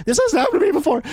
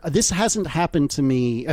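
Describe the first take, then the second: First: Laughing, higher mock-defensive cliché. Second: Said in the usual way. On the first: Host mocking his own excuse, laughing. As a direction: play it as the classic excuse, giggling. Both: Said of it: "This is such a boy thing to say".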